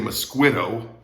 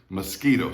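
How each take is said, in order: First: The U after the Q is pronounced. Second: The U after the Q is silent. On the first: The speaker calls it wrong. "You don't say mosquito" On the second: The speaker calls it right. "We say mosquito"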